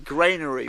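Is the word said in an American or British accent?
American. It is said with an American accent.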